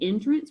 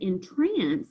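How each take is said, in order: First: The stress is on the first syllable. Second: The stress is on the second syllable. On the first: It means a way in. "we're talking about an entryway" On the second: It means to put a spell on someone. "we're talking about bewitching someone or putting a spell on them"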